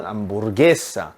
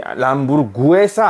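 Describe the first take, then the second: First: 람부르게사 with no u sound, 게 as one syllable; 람부르게사, four syllables with a single 게; right pronunciation. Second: 람부르구에사 with an extra u sound before e; 람부르구에사, 구 and 에 as two syllables; wrong pronunciation. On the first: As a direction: say 람부르게사 cleanly, 게 not 구에. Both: Shown as a demonstration. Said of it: "우 발음 안 됩니다".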